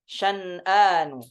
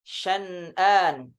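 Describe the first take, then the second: The two takes are said the same way.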